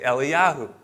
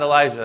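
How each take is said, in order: First: The name is said without a J sound. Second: The name is said with a J sound. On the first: The speaker calls it right. "it's actually pronounced Eliyahu because they don't pronounce the J" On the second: The speaker calls it wrong. "So Elijah is not Elijah"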